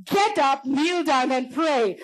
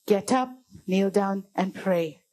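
First: High, forceful command with drawn-out end; louder, insistent call. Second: Low, slow, measured command; calm divine call. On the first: God's voice rousing a man in bed, louder and insistent. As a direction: raise the voice, insisting they obey. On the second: God's voice calling a man in bed, low and calm. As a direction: say it low and unhurried, each step separate. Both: Retold or imitated. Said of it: "the louder the voice got".

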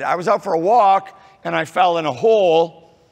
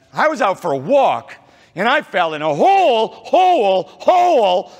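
First: Said in the usual way. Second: Rising higher and louder on each hole; triple repetition building up. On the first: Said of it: "If you said". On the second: Shown as a demonstration. Hole, hole, hole climbing to a near shout. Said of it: "that's how they would talk".

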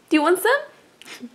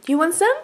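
First: Drawn-out coaxing, stress on want; asking the cat again, slow and playful; slower coaxing. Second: Rising, sweet question; offering the cat a sip; coaxing offer. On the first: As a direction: tease it out slowly. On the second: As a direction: coax the cat to taste. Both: Real, not acted.

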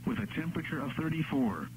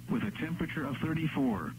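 Both takes have the same delivery.

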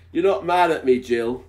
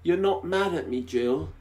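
First: High man's voice. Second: Anxious, high worried voice. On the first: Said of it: "I don't think that was a very anxious voice". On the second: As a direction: sound worried and unsure. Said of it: "his voice full of anxiety". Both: Acted.

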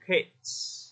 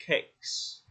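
First: "cakes" said as "kates"; wrong final sound. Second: "Cakes" with K sliding straight into s. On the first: Retold or imitated. Teacher mimicking student's mistake, "cakes" ending t-s. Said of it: "Chứ còn chị Thành nói thành cakes". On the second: Shown as a demonstration. Teacher modelling the plural, "Cakes" ending in k-s. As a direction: keep the K, then hiss the final s of "Cakes". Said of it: "mình chuyển sang luôn âm kia".

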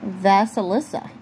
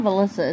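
First: "Vasilissa" in four syllables, opening on "Vas"; corrected name. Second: "Velissa" in three syllables, missing the "si"; wrong name. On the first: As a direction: sound out "Vasilissa" with the "si" put in, tentatively. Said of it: "it's not Velissa, it's Vas". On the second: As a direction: say "Velissa", dropping the middle of the name. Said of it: "it's not Velissa". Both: Shown as a demonstration.

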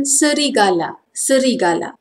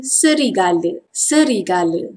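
First: Formal "serigala" ending in a full A; careful "serigala", open last vowel; formal Malay pronunciation. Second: Everyday "serigala" ending in a schwa; informal Malay pronunciation. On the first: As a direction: say "serigala" as se-ri-ga-lah. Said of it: "Formal pronunciation". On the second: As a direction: say "serigala" as se-ri-ga-luh. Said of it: "Informal pronunciation". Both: Shown as a demonstration.

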